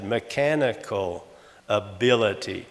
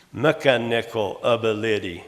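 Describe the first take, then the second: First: Slow "mechanical ability", me-CHAN-ical a-BIL-ity; stress on second syllable. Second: "mechanical ability" with stress moved to first and third syllables; misplaced stress. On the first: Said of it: "generally the second syllable is, is stressed". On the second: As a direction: say "mechanical ability" as MEK-a-NIK-al AB-a-LID-y. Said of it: "put on the first and third instead". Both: Shown as a demonstration.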